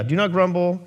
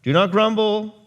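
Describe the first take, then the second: First: "not" hit hard in "Do not grumble"; stress on not. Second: "grumble" punched higher and louder; stress on grumble. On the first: Preacher repeating Paul's command, weight on "not". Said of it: "What he said?". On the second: Preacher quoting Paul to the church, stress on "grumble". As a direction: lean on "grumble" in "Do not grumble". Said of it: "As he says in our text here". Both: Shown as a demonstration.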